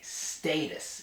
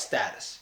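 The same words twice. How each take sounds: First: The first vowel is a hard A. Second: The first vowel is a soft A. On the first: The speaker calls it right. "a really hard A" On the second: The speaker calls it wrong. "I pronounce this wrong"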